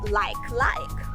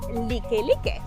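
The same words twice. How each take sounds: First: It sounds like the English word like. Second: It is said with Hawaiian vowel sounds. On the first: The speaker calls it wrong. "if you've never been to Hawaii, you pronounce it like like" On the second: The speaker calls it right. "And it's Like Like"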